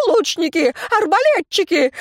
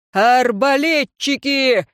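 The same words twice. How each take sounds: First: Raging shout. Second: Shouted order. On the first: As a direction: scream for the archers. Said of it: "бесновался Элихард". (бешеный крик) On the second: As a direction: call the crossbowmen forward. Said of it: "закричал Ордман". (громкий командный крик) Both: A narrator's reading.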